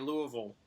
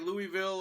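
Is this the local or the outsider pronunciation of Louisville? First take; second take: local; outsider. First: It uses the local pronunciation of the name. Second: It uses the outsider pronunciation of the name. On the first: "the people that live there say Louisville" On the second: "you can say Louisville"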